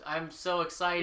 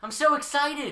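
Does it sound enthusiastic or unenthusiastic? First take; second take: unenthusiastic; enthusiastic. First: It is said with less enthusiasm. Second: It is said with lively enthusiasm.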